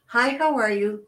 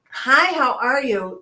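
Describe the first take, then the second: First: Said in the usual way. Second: Held up phrase. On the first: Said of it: "because all that happens is". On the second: Shown as a demonstration. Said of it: "is another phrase that we have eliminated".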